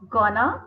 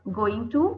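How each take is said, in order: First: The two words blend into one reduced word. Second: Both words are said fully and separately.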